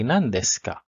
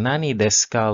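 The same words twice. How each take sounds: First: Nan clipped to one syllable before desu ka; the correct natural form, Nan desu ka; shortened nan. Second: Nani said in full with both syllables before desu ka; the form learners should not use, Nani desu ka; unused full form. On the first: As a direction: say Nan desu ka with Nani cut down to Nan. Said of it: "we just say". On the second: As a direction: say Nani desu ka with the whole word Nani. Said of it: "instead of saying". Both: Shown as a demonstration.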